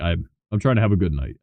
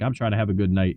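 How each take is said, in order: First: It is said in a slurred, drunken voice. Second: It is said in a clear, sober voice.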